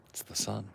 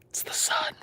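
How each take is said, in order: First: Soft, whispered. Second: Very high, whispered squeak; squeaky whisper. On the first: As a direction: breathe it quietly. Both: Shown as a demonstration. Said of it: "repeated whisper".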